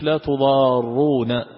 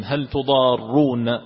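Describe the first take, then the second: First: تضارون with a single light ra, tudaruna. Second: تضارون with a doubled, held ra, tudarruna. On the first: Teacher contrasting the light reading of تضارون, single short ra. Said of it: "بتخفيف الراء". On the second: Teacher showing the doubled reading of تضارون, slowly stressed ra. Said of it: "جاء بالتشديد". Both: Shown as a demonstration.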